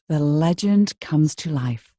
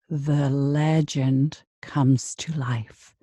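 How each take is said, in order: First: The word legend is drawn out only moderately. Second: The word legend is drawn out very long.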